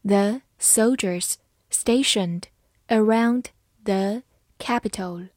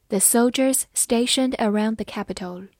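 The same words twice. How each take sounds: First: Slow, careful phrasing; slow reading. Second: Said in the usual way. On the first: Shown as a demonstration. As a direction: read it slowly for learners. (慢速朗读) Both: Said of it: "好，慢慢来读。".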